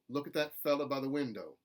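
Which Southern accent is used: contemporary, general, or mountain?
contemporary. The final o in window is kept. "I think is more contemporary Southern"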